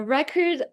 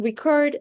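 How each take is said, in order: First: RECord, stressed on the first syllable. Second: ReCORD, stressed on the last syllable; second-syllable stress. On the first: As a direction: say "record" as a noun, hitting REC. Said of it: "like a noun". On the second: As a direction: say "record" as a verb, hitting CORD. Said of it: "it turns into a verb". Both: Shown as a demonstration.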